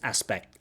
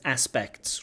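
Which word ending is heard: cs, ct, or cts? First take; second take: ct; cts. First: The final s sound is dropped. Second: The word ends with k, t and s sounds. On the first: "We cannot pronounce it as aspect" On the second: "It has a k, a t, and a s"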